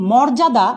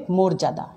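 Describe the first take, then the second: First: মর্যাদা as "mawrjada"; as-written vowel. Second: মর্যাদা as "morjada"; closed "o" in first syllable of মর্যাদা; correct spoken vowel. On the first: Teacher reads the written word, মর্যাদা with open "aw". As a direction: open "aw" in first syllable of মর্যাদা. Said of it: "শব্দটা". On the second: Teacher models pronunciation, মর্যাদা with closed "o". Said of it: "উচ্চারণ হবে". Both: Shown as a demonstration.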